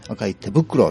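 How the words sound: The emphasis falls on the word 手袋. "手袋のとこを上げる"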